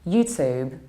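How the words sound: It is said in an American accent. "in American accent it's"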